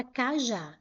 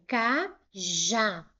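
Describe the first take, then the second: First: Said in the usual way. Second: "cajá" slowly in two separate syllables, ca, já; split into syllables. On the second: Shown as a demonstration. Teacher dividing a word for students, "cajá" syllable by syllable. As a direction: pause between the syllables of "cajá": ca... já. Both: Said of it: "Se eu separar em sílabas".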